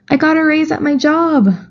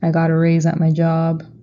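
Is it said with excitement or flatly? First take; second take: excitement; flatly. First: It is said with excitement. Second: It is said flatly, without excitement.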